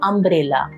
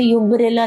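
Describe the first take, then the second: First: The word begins with a plain vowel sound. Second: The word begins with a 'y' glide sound. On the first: The speaker calls it right. "जैसे हम बोलते हैं अम्ब्रेला" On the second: The speaker calls it wrong. "हम उसे यूम्ब्रेला नहीं बोलते"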